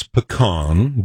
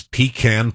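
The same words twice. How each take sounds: First: Pecan with a short first syllable and open "ah" ending; Utah-style pecan. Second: Pecan with a long EE and a flat A; New York-style pecan. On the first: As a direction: say pecan as "puh-KAHN". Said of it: "the proper Utah pronunciation is pecan". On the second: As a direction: say pecan as "PEE-can", rhyming with "can". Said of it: "the other one I can't seem to shake". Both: Shown as a demonstration.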